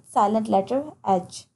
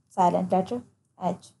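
No difference in how they are said.

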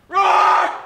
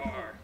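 First: It is said with much more energy. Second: It is said with little energy.

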